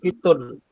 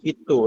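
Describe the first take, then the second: First: The word ends with an n sound. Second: The word ends with a vowel, no n. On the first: The speaker calls it right. "pakai tanwin" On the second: The speaker calls it wrong. "bukan kitu"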